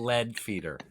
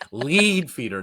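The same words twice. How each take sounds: First: The first word has a short e vowel. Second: The first word has a long ee vowel. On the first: It refers to the metal. The speaker calls it wrong. "They do not feed us lead" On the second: It refers to leading or guiding. The speaker calls it right. "It's ongoing and current. It's not past tense"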